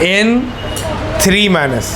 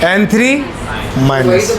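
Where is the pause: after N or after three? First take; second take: after N; after three. First: There is a pause right after N. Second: There is a pause right after three. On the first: One N atom carries a charge of minus three. "N पढ़ना है फिर रुकना है" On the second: A group of three N atoms carries a charge of minus one. "इसको N three पढ़ के रुकना है"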